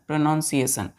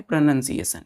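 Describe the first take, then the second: First: प्रोनाउंसिएशन said as spelt, with "nown" like pronounce; spelling pronunciation. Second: प्रोनंसिएशन said "pro-nun-si-e-shan", short "nun", no "nown"; correct pronunciation. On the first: Teacher shows the kids the written form, "pro-nown" spelling sound. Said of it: "लिखते हैं प्रोनाउंसिएशन". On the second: Teacher gives the kids the spoken form, clear "pro-nun". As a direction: say प्रोनंसिएशन with a plain "nun" sound. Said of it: "पढ़ते हैं प्रोनंसिएशन". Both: Shown as a demonstration.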